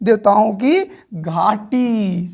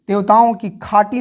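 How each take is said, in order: First: The last word begins with a 'gh' sound. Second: The last word begins with a 'kh' sound. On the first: The speaker calls it right. "समझे?" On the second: The speaker calls it wrong. "नहीं है"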